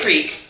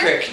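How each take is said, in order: First: The vowel is a long 'ee' sound. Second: The vowel is a short 'i' sound. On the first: This is not how locals say it. The speaker calls it wrong. "You don't say creek" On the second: This is the local way of saying it. The speaker calls it right. "You say crick"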